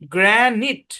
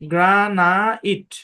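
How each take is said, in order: First: The last syllable is a short 'it'. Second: The last syllable is a long 'eye-t'. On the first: The speaker calls it right. "এটা হচ্ছে original উচ্চারণ" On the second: The speaker calls it wrong. "কিন্তু এটা ভুল"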